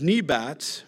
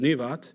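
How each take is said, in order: First: The middle consonant is a B sound. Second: The middle consonant is a V sound. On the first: This is the usual English pronunciation. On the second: This is the Hebrew pronunciation.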